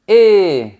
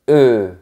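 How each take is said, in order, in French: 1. La voyelle est un son fermé, proche de 'ay'. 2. La voyelle est un son neutre et relâché, 'uh'. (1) "Quand on a la lettre E avec un accent aigu, on dit E" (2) "Quand on a la lettre E sans accent, on dit E"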